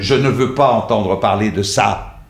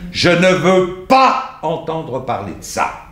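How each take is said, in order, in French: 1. La phrase se déroule de façon régulière jusqu'à la fin, sans accent marqué. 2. Un mot est fortement accentué dans la phrase. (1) "je suis allé jusqu'au bout de la phrase, j'ai rendu l'idée" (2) "il faut l'accentuer"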